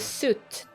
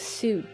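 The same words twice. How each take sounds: First: The vowel is short, like in foot. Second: The vowel is long, like in suit. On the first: The speaker calls it right. "There you go" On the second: The speaker calls it wrong. "It is not suit"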